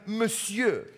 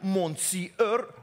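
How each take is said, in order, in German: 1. Das Wort hat seine übliche französische Aussprache. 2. Das Wort wird so ausgesprochen, wie es geschrieben wird. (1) "und sagen Monsieur" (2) "wir schreiben Monsieur"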